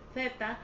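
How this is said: The Z is said with a lisped th sound. This is how it is said in Spain. "ellos pronuncian Z"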